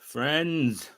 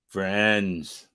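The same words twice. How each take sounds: First: It is said in his normal voice. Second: It is said with a put-on affect.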